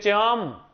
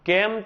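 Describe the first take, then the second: First: The word starts with a ch sound. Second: The word starts with a k sound.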